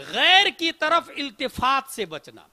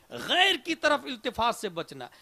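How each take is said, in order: First: Slow, weighty heading, every word set apart; slow emphatic announcement. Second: Said in the usual way. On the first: Acted. Preacher announcing the seventh kind to the congregation, slow and weighty. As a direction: lay it down slowly like a title.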